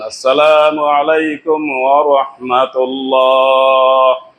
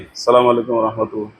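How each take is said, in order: First: It is drawn out long and slowly. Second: It is said short and quickly.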